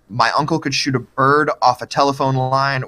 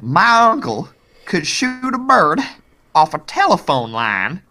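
First: It is spoken in a neutral accent. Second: It is spoken in a Texas accent. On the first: The speaker calls it wrong. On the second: The speaker calls it right.

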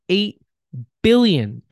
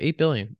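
First: It is said with heavy, weighty emphasis. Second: It is said casually and offhandedly.

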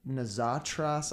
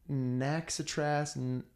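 First: The middle consonant sounds like z. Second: The middle consonant sounds like ks.

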